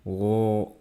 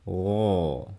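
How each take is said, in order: First: The sound is held back inside. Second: The sound is pushed straight out. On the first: The speaker calls it wrong. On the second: The speaker calls it right. "dorong keluar"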